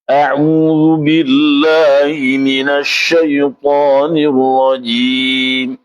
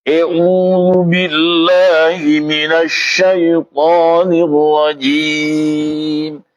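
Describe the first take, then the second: First: A'udzu billahi minasy syaithanir rajim said slow and thin, the way the teacher faulted it; slow recitation with thin vowels; thin wrong recitation. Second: A'udzu billahi minasy syaithanir rajim recited slow with full open vowels; slow recitation with heavy open vowels; corrected recitation. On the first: Retold or imitated. A student reciting to his teacher, slow and thin. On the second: Shown as a demonstration. Teacher showing students the corrected way, slow recitation. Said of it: "Mestinya dibaca E".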